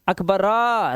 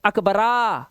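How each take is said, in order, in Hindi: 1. नाम का अंत पूरी 'ra' स्वर ध्वनि से होता है। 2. नाम का अंत पूरी 'ra' स्वर ध्वनि से होता है।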